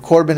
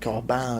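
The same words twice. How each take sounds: First: The name is said with an American pronunciation. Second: The name is said with a French pronunciation. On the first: "Corbin is American pronunciation" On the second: "It's French is something like Corbin"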